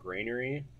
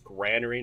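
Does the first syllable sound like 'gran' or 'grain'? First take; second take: grain; gran. First: The first syllable has an 'ai' vowel. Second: The first syllable has a short 'a' vowel. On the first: The speaker calls it wrong. "not granary. Because there's no I in it" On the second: The speaker calls it right. "It's granary"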